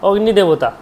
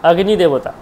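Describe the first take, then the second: No difference in how they are said.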